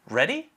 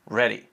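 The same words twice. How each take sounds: First: It is said with a questioning tone. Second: It is said with a statement tone. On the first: It asks whether the listener is ready. "Are you ready?" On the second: It says the speaker is ready. "I am ready"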